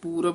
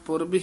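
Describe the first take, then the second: First: The first vowel is a long oo. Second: The first vowel is a short u. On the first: The speaker calls it wrong. "ਆਮ ਪਾਠੀ ਸਿੰਘ ਪੂਰਬ ਉਚਾਰਨ ਕਰ ਦਿੰਦੇ ਨੇ ਦੁਲੈਂਕੜ ਲਾ ਕੇ" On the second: The speaker calls it right. "ਧਿਆਨ ਨਾਲ ਪੁਰਬ ਹੀ ਉਚਾਰਨ ਕਰਨਾ ਹੈ"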